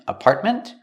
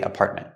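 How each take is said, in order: First: The final T is fully released. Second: The final T is stopped, not released. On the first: "you can pronounce the T and say ment" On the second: "or make it a stop T too"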